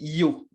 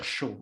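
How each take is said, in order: First: The word begins with a 'y' sound. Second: The word begins with an 'sh' sound. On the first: This is the Spanish of Spain. "on dit yo. Et c'est ce qu'on va apprendre en, en espagnol castillan" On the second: This is the Spanish of Argentina. "Mais en Argentine, ils prononcent euh, C H, le Y"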